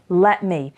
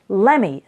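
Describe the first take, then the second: First: Both words are said fully and separately. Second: The words blend quickly into one word.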